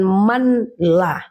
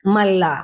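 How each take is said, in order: First: The n is clearly sounded before the l. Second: The n merges into a doubled l sound. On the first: The speaker calls it wrong. "bukan manlah" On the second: The speaker calls it right. "Jadi malla bukan manlah"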